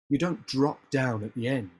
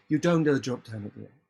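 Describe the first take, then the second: First: The voice stays strong through the end. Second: The voice fades and drops at the end.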